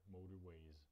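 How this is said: The r is kept and the t sounds like d. "Američani by ho tam nechali, ale místo t by dali"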